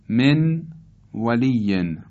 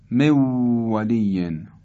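First: The n sound is pronounced before the w. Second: The n merges into a doubled w sound.

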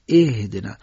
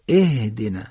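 First: The first consonant is light and breathy. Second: The first consonant is light and breathy.

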